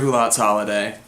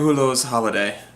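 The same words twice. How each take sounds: First: It is said with an American English accent. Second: It is said with an attempted French accent. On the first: "I'll Americanize it" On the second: "That was the worst French accent ever"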